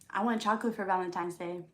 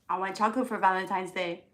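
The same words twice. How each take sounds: First: It is said plainly, without extra force. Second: It is said emphatically, with extra force.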